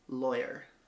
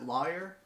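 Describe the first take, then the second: First: The first syllable rhymes with boy. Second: The first syllable sounds like the word law. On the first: "Rhymes with boy. I just said it" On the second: "I know people say law"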